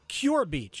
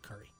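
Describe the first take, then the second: First: The first word is one syllable, like 'cure'. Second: The word has two syllables, like 'curry'. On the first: The speaker calls it wrong. "well, I see Cure Beach" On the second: The speaker calls it right. "no, that's pronounced Curry"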